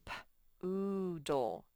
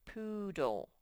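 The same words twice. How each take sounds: First: P-oodle sounded out slowly; sounding out words. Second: Said in the usual way. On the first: Shown as a demonstration. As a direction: sound out P-oodle one sound at a time. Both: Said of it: "Let's read this first one".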